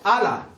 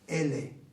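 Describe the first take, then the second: First: The vowels are pronounced as an open 'a'. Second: The vowels are pronounced fronted, like 'e'. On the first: This is how people in the north say it. "nosotros no decimos" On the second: This is how we Andalusians say it. "lo pronunciamos con imela"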